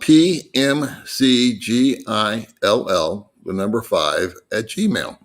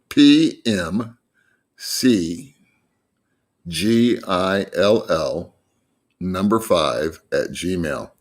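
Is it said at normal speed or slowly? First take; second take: normal; slowly. First: It is said at a normal pace. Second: It is said more slowly.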